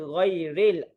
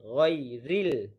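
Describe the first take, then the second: First: The last syllable has an 'e' vowel. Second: The last syllable has an 'i' vowel. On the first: The speaker calls it wrong. "R E L. Itu tidak tepat" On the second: The speaker calls it right. "R I L"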